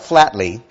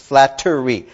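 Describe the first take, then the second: First: The word is said with two syllables. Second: The word is said with three syllables. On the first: The speaker calls it wrong. "it's not flatly" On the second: The speaker calls it right. "Three distinct syllables"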